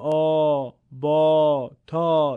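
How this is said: The letters are said in a Persian accent. The speaker calls it wrong. "دیگه نمیگیم آ با تا. این لهجه فارسیه"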